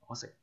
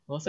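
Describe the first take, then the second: First: The word is said with a low tone. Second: The word is said with a high tone. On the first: I don't eat it. "So it's a low tone" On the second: I don't know it. "so it's a high tone"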